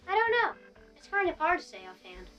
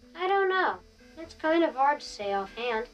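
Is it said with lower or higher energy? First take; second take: higher; lower. First: It is said with more energy. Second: It is said loud and drawn out.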